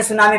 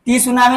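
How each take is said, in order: First: सुनामी starting straight on the "s" sound; सुनामी with its written T left silent. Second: टी सुनामी with the silent T wrongly voiced as "tee"; wrong reading "tee-sunami", the T spoken aloud; T pronounced. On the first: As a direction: say "सुनामी" as "soo-naa-mee", no T. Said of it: "silent है". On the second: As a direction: say "टी सुनामी", sounding the T as its own syllable before "su". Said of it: "नहीं पढ़ेंगे". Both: Shown as a demonstration.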